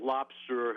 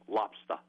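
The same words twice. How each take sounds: First: The final R sound is clearly pronounced. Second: The final R sound is dropped. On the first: "He'll pronounce the ER" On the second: "they pronounce it up in Maine as lobster"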